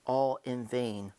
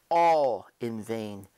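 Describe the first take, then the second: First: Said in the usual way. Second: All in vain slowed and louder, each word weighted; all in vain dragged out, louder and grim; slow heavy emphasis. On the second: Acted. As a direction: lean hard on all in vain.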